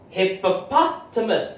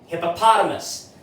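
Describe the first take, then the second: First: The word is said slowly and carefully. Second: The word is said quickly in one go.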